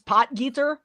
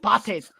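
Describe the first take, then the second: First: The middle consonant is a plain hard G. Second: The middle consonant is a harsh throaty sound. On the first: The speaker calls it wrong. "Everyone thinks it's Potgeeter" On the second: The speaker calls it right. "you say it like an angry German"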